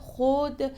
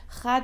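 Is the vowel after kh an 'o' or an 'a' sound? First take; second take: o; a. First: The vowel after kh sounds like 'o'. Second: The vowel after kh sounds like 'a'. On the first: This is the modern pronunciation. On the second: This is the old pronunciation.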